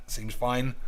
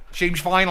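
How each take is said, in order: First: Said in the usual way. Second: "fine" rising up like a question; doubtful question. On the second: Shown as a demonstration. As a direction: ask "Seems fine" with a doubtful rise on "fine".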